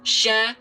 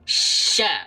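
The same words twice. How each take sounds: First: The sh sound is made with rounded, moving lips. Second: The sh sound is made with still, unrounded lips. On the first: The speaker calls it wrong. "bibirnya masih ngikut bergerak. ... Itu tidak boleh" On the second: The speaker calls it right. "Lihat bibirnya dia nggak bergerak"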